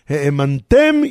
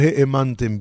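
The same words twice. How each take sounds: First: The stress falls on the final syllable. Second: The stress falls before the final syllable. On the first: You did not cause others to believe. The speaker calls it right. "האמנתם עם מילרה" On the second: You yourselves did not believe. The speaker calls it wrong. "רק באמת לא כתוב כאן לא האמנתם בי"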